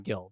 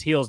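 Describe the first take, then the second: First: "Gil" with a hard G and short i; Anglicized "Gil", hard G as in give; wrong English pronunciation. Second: "Gil's" said as "heels"; Spanish pronunciation. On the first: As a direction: say "Gil" like the gill of a fish. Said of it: "I know it's not Gil". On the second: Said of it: "did say Luis Gil's name right". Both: Shown as a demonstration.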